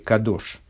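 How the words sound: The word sounds like 'kadosh'.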